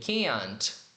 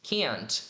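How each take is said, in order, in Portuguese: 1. O t final é pronunciado claramente. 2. O t final é pronunciado claramente.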